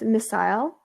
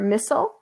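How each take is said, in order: First: It is said in a British accent. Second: It is said in a North American accent.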